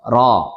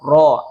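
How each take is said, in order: First: The vowel is said without rounding the lips. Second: The vowel is said with rounded, pushed-out lips. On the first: The speaker calls it right. "Yang benar" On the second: The speaker calls it wrong. "memayunkan mulut ... salah ya"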